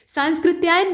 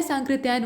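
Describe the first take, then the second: First: सांस्कृत्यायन said with a clear स before क्; wrong spelling said aloud. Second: सांकृत्यायन said with no स before क्; correct pronunciation. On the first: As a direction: say सांस्कृत्यायन as the wrong form, sounding the extra स. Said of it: "नहीं होता है". (गलत उच्चारण: सांस्कृत्यायन में आधा स बोलकर) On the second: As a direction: say सांकृत्यायन cleanly, straight from ं to क. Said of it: "होता है". (सही उच्चारण: सांकृत्यायन, बिना आधे स के) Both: Shown as a demonstration.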